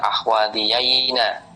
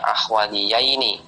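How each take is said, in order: First: The final nun is said with an a vowel. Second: The final nun is said with an i vowel. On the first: This is the rare form found in poetry. "cuma di sini di fathah" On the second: This is the normal form of the dual. "harusnya ahwadhiyaini"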